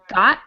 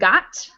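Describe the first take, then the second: First: The final T stops in the back of the throat. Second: The final T is fully released through the mouth. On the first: This is the usual everyday pronunciation. "Usually I say ... got instead of" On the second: The pronunciation is exaggerated for some reason. "instead of got"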